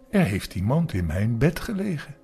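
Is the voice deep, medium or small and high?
medium. The voice is moderately deep and heavy. The speaker is a medium-sized creature. "met zijn middelmatig zware stem"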